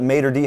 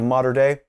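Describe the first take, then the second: First: The last word ends in an 'ee' sound. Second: The last word ends in an 'ay' sound. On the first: The speaker calls it wrong. "I may have formerly mispronounced it" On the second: The speaker calls it right. "instead of"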